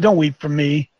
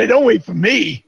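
First: Don't weep for me said lower and gravely; grave lower reading of Don't weep for me; solemn low voice. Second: Said in the usual way. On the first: Shown as a demonstration. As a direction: lower and solemn, the weight of the words. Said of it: "He said". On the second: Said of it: "That's what I'm saying".

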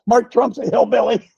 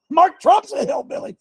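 First: Said in the usual way. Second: Much higher, gleeful rising hillbilly claim; playful exclamation. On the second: Acted. Preacher teasing his congregation about Mark Trump, high gleeful exclaim. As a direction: toss it up high like a joke to the crowd. Repeats line, pitched up playfully.

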